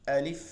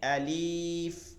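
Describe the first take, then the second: First: The final syllable is kept short. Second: The final syllable is stretched out long. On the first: The speaker calls it right. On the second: The speaker calls it wrong.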